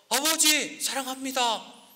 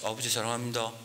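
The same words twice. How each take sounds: First: It is shouted at full volume. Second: It is said in a tiny, timid voice.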